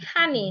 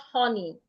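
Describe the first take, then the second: First: The word begins with a clear H sound. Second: The word begins with a vowel, no H. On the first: The speaker calls it right. "the H is not silent, so I must pronounce the H" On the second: The speaker calls it wrong. "not honey"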